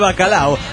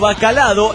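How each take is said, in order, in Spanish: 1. No hay ningún sonido d antes de la o final. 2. Se añade un sonido d antes de la o final. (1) "en vez de bacalao" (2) "frases tan estúpidas"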